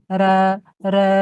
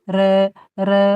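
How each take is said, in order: Both takes have the same delivery.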